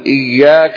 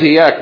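First: The y sound is held and doubled. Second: The y sound is short and single. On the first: It means you alone. The speaker calls it right. "تشديد على الياء والياء" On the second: It refers to the sunlight. The speaker calls it wrong. "لو قلت إياك من دون تشديد"

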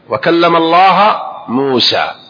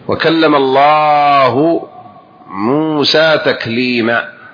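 First: The word Allah ends with an 'a' vowel. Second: The word Allah ends with a 'u' vowel. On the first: Moses is the one who spoke. The speaker calls it wrong. "أرادوا نصب لفظ جلالة" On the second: God is the one who spoke. The speaker calls it right. "قال الله تعالى في كتابه"

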